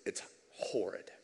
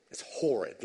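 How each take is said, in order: First: Whispered, slow and much softer; a low whisper of dread at horrid; hushed. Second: Said in the usual way. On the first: Real, not acted. Preacher repeats horrid, hushed first.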